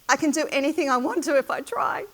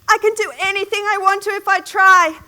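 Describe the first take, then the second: First: It is said at a loud volume. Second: It is said at the loudest volume.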